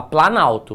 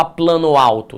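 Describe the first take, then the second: First: "planalto" run together as one word; fused compound. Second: "plano alto" as two full words, both o and a sounded; two separate words. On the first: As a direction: drop the o, straight from plan into alto. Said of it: "você fala". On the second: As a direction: keep the final o of plano before alto. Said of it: "Você não fala". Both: Shown as a demonstration.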